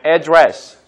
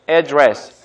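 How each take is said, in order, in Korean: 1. 첫 번째 모음은 짧은 'uh' 소리처럼 나요. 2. 첫 번째 모음은 짧은 'eh' 소리처럼 나요. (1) "address라고 발음하는 분들도 있고요" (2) "에에 가깝게 address라고 발음하는 분들도 있는데"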